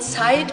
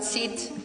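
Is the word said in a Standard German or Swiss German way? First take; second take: Standard German; Swiss German. First: It is said with a Standard German 'ei' diphthong. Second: It is said with a Swiss German long 'i' vowel. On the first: "ihr sagt nicht Zeit" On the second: "ihr sagt Zit"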